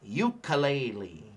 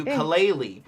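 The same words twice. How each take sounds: First: "ukulele" said slowly as "yoo-kuh-lay-lee"; common mispronunciation. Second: "ukulele" as "oo-koo-leh-leh", no lay sound; correct Hawaiian. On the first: Teacher shows students the common wrong "ukulele". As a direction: drawl out the anglicized "ukulele". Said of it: "we hear". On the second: Teacher gives the class the correct Hawaiian ukulele. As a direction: say "ukulele" the Hawaiian way, with pure vowels. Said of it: "this is the Hawaiian lay". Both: Shown as a demonstration.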